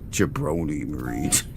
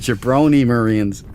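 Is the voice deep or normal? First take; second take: deep; normal. First: It is said in a deep voice. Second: It is said in a normal voice.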